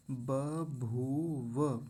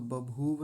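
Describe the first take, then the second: First: 'बभूव' slowly as ba-bhoo-va; three drawn-out syllables in 'बभूव'; full final व. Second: 'बभूव' quickly as ba-bhoov; clipped final व. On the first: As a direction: sound the last vowel of 'बभूव'. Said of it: "ऐसा बोलेंगे". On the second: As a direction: drop the last vowel of 'बभूव'. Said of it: "बभूव नहीं बोलेंगे". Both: Shown as a demonstration.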